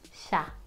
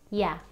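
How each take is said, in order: First: The y is said like sh. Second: The y is said like the y in yo. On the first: "The other one is like saying shh" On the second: "One of them is E, for example, yo"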